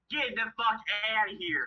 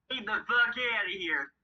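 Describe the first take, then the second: First: High imitated Boston accent. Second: Put-on high, second-try Boston accent; imitated Boston accent. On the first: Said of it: "he's got his Boston accent going". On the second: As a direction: mimic a Bostonian telling someone off. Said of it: "That sounded more like a Southern accent".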